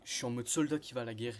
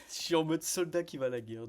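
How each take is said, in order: First: Said in the usual way. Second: Hyped retelling. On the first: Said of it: "du coup je disais". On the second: Real, not acted.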